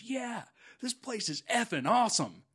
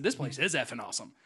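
First: Imitating the kid, higher and louder; excited teen kid. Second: Said in the usual way. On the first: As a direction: blurt it out like a thrilled street kid. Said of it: "And he stops, he goes". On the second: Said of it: "I said".

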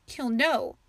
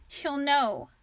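First: A touch of tearful dread, a little louder; mild sniffle behind the words; understated fearful sniff; sniffling. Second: Firm, stubborn repeat of her warning; a touch of stubborn conviction; insisting. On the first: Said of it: "Ava sniffed". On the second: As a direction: dig in and insist. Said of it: "Ava insisted". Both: A narrator's reading.

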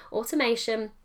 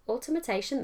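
First: "automation" said again, carefully and correctly; corrected word. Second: "automation" tripped over and said wrongly; mispronounced word. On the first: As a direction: fix it and say "automation" cleanly. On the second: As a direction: fumble "automation" as a non-word. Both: Shown as a demonstration. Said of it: "that's not a word".

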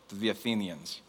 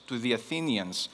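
Both takes have the same delivery.

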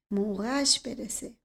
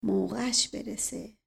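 First: Softer, slow, more inward second «موقعش برسه», falling at the end; muttered under breath. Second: Softer, slow mutter of «موقعش برسه», «موقعش» leaned on; muttered under breath. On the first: Uncle mulls the words over, muttering softer still. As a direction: let «موقعش برسه» sink away slowly to yourself. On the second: Uncle repeats the shoeshiner's words, muttering softly. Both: Acted. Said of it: "زیر لب کلمات او را تکرار کرد".

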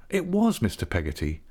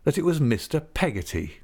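First: Emphasis on "was", confirming it; stress on WAS. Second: A touch of glad agitation, pitched higher; pleased, agitated cry. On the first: Narrator confirms who the visitor is, stress on "was". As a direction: lean on "was" as a settled fact. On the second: Wife cries out on recognising an old friend, pleased and agitated. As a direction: lift it with mild, pleased agitation. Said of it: "in a pleased and agitated voice". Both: A narrator's reading.

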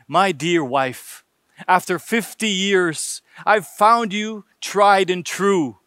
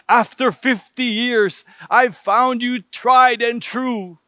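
First: Slow, tender declaration to his wife; an old husband's gentle toast. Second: Slow, slightly raised repeat for a hard-of-hearing wife; husband raising his voice for his deaf wife; repeated loudly. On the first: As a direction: say it slowly and lovingly, eyes on her. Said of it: "looking tenderly into her eyes". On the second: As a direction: say it again a bit louder and slower so she hears. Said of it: "repeated himself quite loudly". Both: A narrator's reading.

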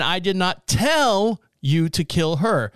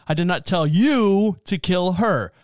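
First: "tell" stressed, slow and deliberate. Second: "you" stressed, slow and deliberate. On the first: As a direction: lean on "tell", unhurried. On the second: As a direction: lean on "you", unhurried. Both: Shown as a demonstration. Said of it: "Depending on how you emphasize the phrase".

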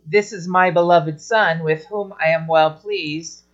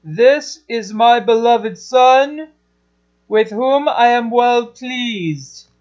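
First: Flat, distant reading of God's words; cold and distant God. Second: Slow, higher, fuller and proud; a father glowing over his son; loving God. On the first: Teacher showing how not to voice God, cold and distant. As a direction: say it like a remote voice. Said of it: "don't make him sound cold and distant". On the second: Teacher voicing God about his beloved son, slow and loving. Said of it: "Make him sound like the loving God". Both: Shown as a demonstration.

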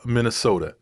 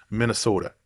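First: Said in the usual way. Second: Lightly mock the Minnesota accent, Minnesota said the local way; horrible Minnesota accent. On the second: Vlogger hamming up a self-mocking Minnesota accent. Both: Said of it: "That was my horrible Minnesota accent".

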